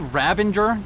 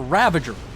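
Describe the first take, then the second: First: It has an n sound before the g. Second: It has no n sound before the g. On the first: The speaker calls it wrong. "Did I say Ravenger? There's no in in there" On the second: The speaker calls it right. "Say it properly"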